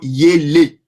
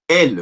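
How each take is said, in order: First: The word starts with a 'y' glide. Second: The word starts directly with the vowel. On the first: The speaker calls it right. "Mais c'est plutôt yele" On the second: The speaker calls it wrong. "tu auras tendance à le prononcer elle"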